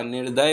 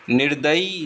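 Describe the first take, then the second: First: निर्दय ending without ई; teacher models the correct निर्दय; correct form निर्दय. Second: निर्दयी ending in long ई, incorrect; teacher shows the mistaken निर्दयी; wrong form निर्दयी. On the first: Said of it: "निर्दय होता है". (सही उच्चारण निर्दय) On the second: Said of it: "निर्दयी नहीं होता". (गलत रूप निर्दयी) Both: Shown as a demonstration.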